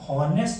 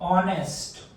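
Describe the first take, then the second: First: The word begins with an h sound. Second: The word begins directly with a vowel. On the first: The speaker calls it wrong. "હોનેસ્ટ નથી બોલવાનું" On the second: The speaker calls it right. "અહીંયા ઓ બોલાય છે"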